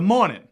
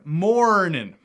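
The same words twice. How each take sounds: First: A Boston accent with the R dropped. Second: A Texan accent with a strong R sound. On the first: "up in Boston, they would say" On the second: "In Texas, I would say... That's that rhotic R"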